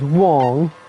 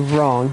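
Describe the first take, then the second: First: The word begins with a W sound. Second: The word begins with an R sound. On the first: "he says Wong" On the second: "He doesn't say wrong"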